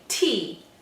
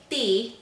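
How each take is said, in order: First: The T is aspirated with a puff of breath. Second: The T is soft, without a puff of breath. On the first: The speaker calls it right. "we say T. Okay, that's called an aspirated sound" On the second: The speaker calls it wrong. "we don't say"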